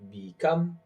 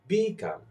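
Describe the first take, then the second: First: The stress is on the second syllable. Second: The stress is on the first syllable. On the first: The speaker calls it right. "I am stressing the second syllable" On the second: The speaker calls it wrong. "and not"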